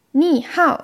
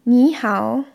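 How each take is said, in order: First: Ni hao slowly, with wrong tones and Hao falling. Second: Ni hao with correct Mandarin tones. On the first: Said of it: "heißt das gleich Ni, Schlamm". (Ni hao langsam mit falschen Tönen) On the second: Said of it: "Wenn man nicht". (Ni hao mit richtigen Tönen) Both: Shown as a demonstration.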